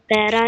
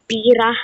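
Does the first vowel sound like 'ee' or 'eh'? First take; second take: eh; ee. First: The first vowel sounds like 'eh'. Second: The first vowel sounds like 'ee'. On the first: The speaker calls it right. "Pe- pera yun yun" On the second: The speaker calls it wrong. "Pira, yung pinag-pronounce ko kanina"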